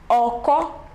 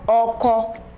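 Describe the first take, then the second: First: The pitch goes from mid to high. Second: The pitch stays mid on both syllables. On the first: "Re, Mi" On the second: "Re, Re"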